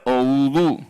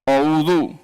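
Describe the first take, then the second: First: The vowels sound thick and heavy, tongue raised. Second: The vowels sound thin and light, tongue lowered. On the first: The speaker calls it wrong. "jangan dibaca" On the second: The speaker calls it right. "Karena dia apa? Istifal"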